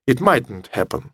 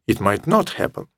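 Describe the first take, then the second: First: Not is shortened and joined to might. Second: Not is said as a full separate word. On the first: The speaker calls it wrong. "или просто" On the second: The speaker calls it right. "Я предпочитаю говорить «it might not happen»"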